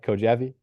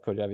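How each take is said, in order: First: The name is said like 'Ko-ja-vee'. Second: The name is said like 'Ko-jev'. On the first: The speaker calls it wrong. "I don't know if I'm saying his name right" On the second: The speaker calls it right. "I think it must be Kojev"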